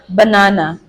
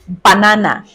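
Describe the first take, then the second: First: Unstressed vowels are relaxed, reduced schwa sounds. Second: Unstressed vowels are fully pronounced, not reduced. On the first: The speaker calls it right. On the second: The speaker calls it wrong.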